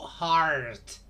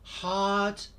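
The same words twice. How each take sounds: First: The R after the vowel is strongly pronounced. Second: The R after the vowel is not pronounced. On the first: "in North American English, the R is strongly pronounced" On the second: "British English. No R"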